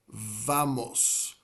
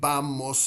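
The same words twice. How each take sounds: First: The first sound is a soft V. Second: The first sound is like a B. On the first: "like it's a V, but it's it's maybe a, a more subdued V" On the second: "Some Spanish speakers will pronounce it almost like a B"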